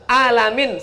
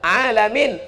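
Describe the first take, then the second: First: It begins with a plain vowel sound. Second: It begins with a deep throat consonant. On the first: Painful. The speaker calls it wrong. "Bukan ain, pakai alif" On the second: The universe. The speaker calls it right. "Pakai ain"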